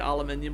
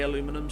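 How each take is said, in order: First: It is said the British way, with five syllables. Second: It is said the American way, with four syllables. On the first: This is how it is said where the speaker lives. "we say aluminium over here" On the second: This is how it is said in the States. "I know you say aluminum"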